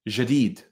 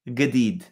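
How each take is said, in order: First: The word starts with a j sound. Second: The word starts with a hard g sound. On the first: "If I were to say um, jadid" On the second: "In Egypt, that would be gadid with a g"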